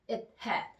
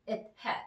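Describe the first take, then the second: First: The breath briefly stops after it. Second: The same.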